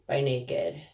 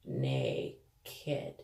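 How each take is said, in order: First: Said in the usual way. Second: Naked stretched out very low and soft; drawn-out NAKED. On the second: Pretend. Repeating the brand for effect, Naked low and drawn out. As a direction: drop low and draw out both syllables of Naked.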